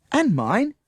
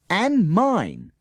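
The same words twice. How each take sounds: First: Said in the usual way. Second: And mine, called high and loud, falling; the whole class yells And mine together; shouted. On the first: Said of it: "said Dominic". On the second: Acted. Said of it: "the rest of the class shouted".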